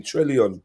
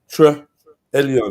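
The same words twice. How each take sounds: First: Said in the usual way. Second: "Tre-, Elion" broken after Tre, with a pause; name split in two. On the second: Shown as a demonstration. Host working out how to say a name, split in two: "Tre-, Elion". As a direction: sound out "Tre-, Elion" as two separate parts. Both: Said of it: "tell me how to say".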